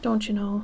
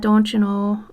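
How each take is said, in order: First: It has only a mild Minnesotan accent. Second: It has a heavy, exaggerated Minnesotan accent. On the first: "it doesn't sound like it exactly" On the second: "I don't lean into it like"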